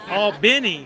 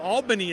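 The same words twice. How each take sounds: First: It is said the Georgia way. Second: It is said the New York way. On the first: The place meant is the city in Georgia. "is in Georgia" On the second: The place meant is the city in New York. "Albany is in New York"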